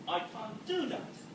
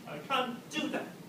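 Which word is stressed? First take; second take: do; do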